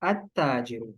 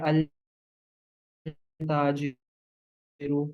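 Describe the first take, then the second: First: "अत्ताजिरु" with the lam dropped and a doubled "त्त"; correct assimilation. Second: "अल ताजिरु" drawn out very slowly with a separate "अल"; wrong article. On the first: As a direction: join the alif straight onto "ता": "अत्ताजिरु", no lam. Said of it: "तो सही क्या होगा?". ("अत्ताजिरु" लाम के बिना, दोहरे "त्त" के साथ) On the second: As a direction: stretch out "अल ताजिरु", sounding the lam of "अल" apart from "ताजिरु". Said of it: "अल ताजिरु सुनने में आपको थोड़ा सा कोई ऑकवर्ड सा". ("अल ताजिरु" धीरे-धीरे, अल का लाम अलग बोलते हुए) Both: Shown as a demonstration.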